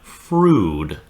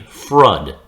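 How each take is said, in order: First: The vowel is long, as in smooth. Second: The vowel is short, as in mud. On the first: It suggests something smooth. The speaker calls it right. "we're taking the pronunciation of smooth" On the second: It suggests something thick like mud. The speaker calls it wrong. "it would be frud ... kind of gives up the image of mud"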